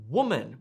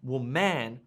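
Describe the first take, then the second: First: The stress is on the first syllable. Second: The stress is on the second syllable. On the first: The speaker calls it right. "We say woman with emphasis on the first syllable" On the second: The speaker calls it wrong. "We don't say woman with emphasis on the second syllable"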